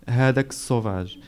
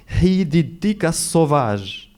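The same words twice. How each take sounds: First: Said in the usual way. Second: Put-on quoting cousin, sauvage with a French accent, slower; "sauvage" said the French way, uvular r, slowed down. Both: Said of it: "She said it with a French accent".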